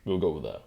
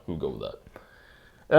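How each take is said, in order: First: Said in the usual way. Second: Slow, lower repeat of "We'll go with that."; slow, resigned repeat. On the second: Shown as a demonstration. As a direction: drag out "We'll go with that." as if settling. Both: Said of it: "There we go".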